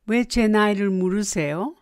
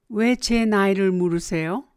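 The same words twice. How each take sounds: The two takes are said the same way.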